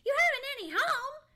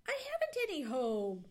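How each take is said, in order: First: High, loud, fast astonished echo; incredulous. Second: Said in the usual way. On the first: A narrator's reading. Squirrel echoing Johnny's news, incredulous. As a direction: squeak it back in disbelief. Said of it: "didn't think he had heard that aright". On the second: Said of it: "just a wee bit wistful".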